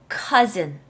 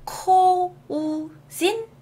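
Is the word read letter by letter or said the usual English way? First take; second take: usual English; letter by letter. First: It is said the usual English way. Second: It is read letter by letter, as spelled. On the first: The speaker calls it right. "내가 보는 대로 읽는 게 아니에요" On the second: The speaker calls it wrong. "내가 배운 대로라면 코우진이어야 되는데 그렇지 않죠?"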